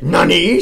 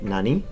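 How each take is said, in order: First: The word is said harshly, like an angry shout. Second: The word is said calmly, without harshness. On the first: The speaker calls it wrong. "you sound like an angry samurai" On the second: The speaker calls it right. "you're supposed to say like"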